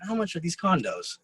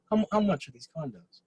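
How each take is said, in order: First: Said in the usual way. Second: A hint of a smooth, self-assured buyer, lightly voiced; magnetic rich man. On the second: Shown as a demonstration. Imitating the rich buyer asking about condos in Marbella, lightly magnetic. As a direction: ask it like a man who owns the room. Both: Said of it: "I'm trying to be as magnetic as this guy".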